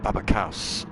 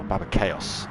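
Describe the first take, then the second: First: Chaos as one syllable, like "kowss"; mispronounced name. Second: Chaos in two syllables, "KAY-oss"; corrected name. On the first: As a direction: say Chaos to rhyme with house. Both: Real, not acted. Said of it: "Sorry, Baba Chaos".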